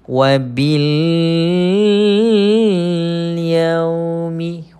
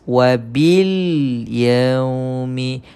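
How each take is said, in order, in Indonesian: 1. Bunyi L melirit dan dipanjangkan. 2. Bunyi L pendek dan diucapkan dengan jelas. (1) "Kita baca dengan melirit, memanjangkan. Yang salah, Ustaz bagi contoh salah eh" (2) "kita baca jelas"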